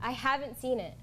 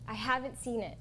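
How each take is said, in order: First: It is said much louder. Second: It is said too quietly.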